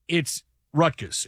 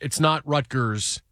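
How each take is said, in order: First: The R is dropped, New Jersey style. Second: Every R is fully pronounced.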